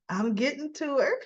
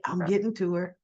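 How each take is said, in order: First: Higher, with a rising lilt on her; pleased with himself, sing it up; gleeful thought. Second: Said in the usual way. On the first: Retold or imitated. Tucker peeking through the glass at Ashley, higher and gleeful. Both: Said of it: "He's thinking".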